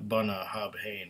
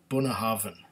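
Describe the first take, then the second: First: The name is pronounced the way it is spelled. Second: The name is pronounced in its established local form. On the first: The speaker calls it wrong. "the first time I saw it, it was Bunnahabhain. But it's not Bunnahabhain" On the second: The speaker calls it right. "it's Bunnahabhain"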